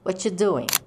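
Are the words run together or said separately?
run together. The words are run together quickly.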